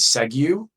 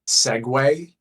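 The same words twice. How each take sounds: First: The word is pronounced as it is spelled. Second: The word is given its standard pronunciation. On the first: The speaker calls it wrong. "not as segue, ... because it looks like S E G" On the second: The speaker calls it right. "I just learned uh, to say segue"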